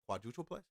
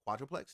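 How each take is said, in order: First: The word is said with four syllables. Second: The word is said with three syllables. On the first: The speaker calls it wrong. "not a quadrupleplex" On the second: The speaker calls it right. "it's pronounced a quadruplex"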